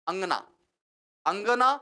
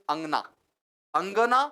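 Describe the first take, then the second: Both takes have the same delivery.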